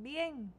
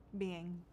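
First: Higher questioning bien; a bright check-in question to the viewers; asking viewers. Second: Said in the usual way. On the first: Pretend. Greeting viewers, asks if they're fine, questioning tone.

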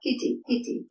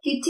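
First: "കിറ്റി" with a short single t; don't double the t in "കിറ്റി"; correct pronunciation. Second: "കിറ്റി" with a doubled t; common mispronunciation. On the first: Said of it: "അതുപോലെ കിറ്റി എന്നല്ല". ("കിറ്റി", ഒറ്റ ട ശബ്ദത്തോടെ) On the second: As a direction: hold the t in "കിറ്റി". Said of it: "എന്നല്ല". ("കിറ്റി", ഇരട്ട ട ശബ്ദത്തോടെ) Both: Shown as a demonstration.

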